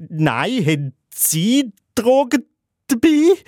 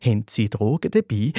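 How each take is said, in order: First: High, flustered counter-question climbing at the end; hammed-up overwhelmed squeak, rising sharply; completely overwhelmed. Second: Low, controlled police questioning; acted distrustful cop, pitched down; suspicious policeman. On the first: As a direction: blurt it back, pitch shooting up in mock panic. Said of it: "ich bin völlig überfordert und sage". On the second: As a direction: ask it low and suspicious, as an officer. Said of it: "Der Polizist wird misstrauisch, fragt nochmal".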